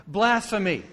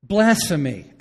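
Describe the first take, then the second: First: Higher, louder, falling Blasphemy; firm verdict. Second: Loud, half-laughing blasphemy; word with a laugh. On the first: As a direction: land Blasphemy as a final word. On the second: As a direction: blurt Blasphemy out with a laugh, louder. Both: Real, not acted. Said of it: "let me give you a word for it".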